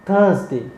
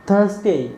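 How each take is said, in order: Both takes have the same delivery.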